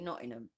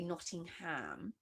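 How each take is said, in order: First: It is said in a local Nottingham accent. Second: It is said in a posh, upper-class accent. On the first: "people that that come from Nottingham, um, they say Nottingham" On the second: "if you come from a very posh area, you would say Nottingham"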